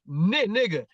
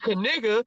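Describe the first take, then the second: First: The initial K sound is silent. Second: The initial K sound is pronounced. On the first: The speaker calls it right. "you don't say the K" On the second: The speaker calls it wrong. "you ain't gonna say Kaniga"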